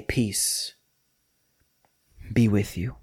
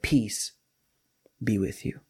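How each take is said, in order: First: Gentle blessing. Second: Soft, gentle and quiet; gentle blessing. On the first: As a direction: breathe the words like a blessing. Jesus's gentle greeting, repeated. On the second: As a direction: speak peace softly over the room. Jesus's gentle greeting. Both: Retold or imitated.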